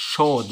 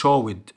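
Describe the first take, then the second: First: "showed" as one syllable, showd; correct joined ending. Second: "showed" wrongly split as show-id; wrong extra syllable. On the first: Teacher modelling the right past ending, joined D. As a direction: close "showed" straight on a D. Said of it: "showed، مش showed". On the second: Teacher showing pupils what to avoid, wrong extra syllable. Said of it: "مش showed". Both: Shown as a demonstration.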